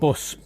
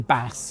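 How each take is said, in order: First: It is said with a northern English vowel. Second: It is said with a southern English vowel. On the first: "the northern way, and bus" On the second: "I try and say Bass and Landon"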